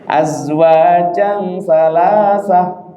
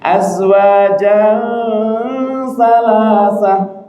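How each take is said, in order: First: The nasal hum is held too briefly. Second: The nasal hum is held too long. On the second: "Kepanjangan berengengengnya"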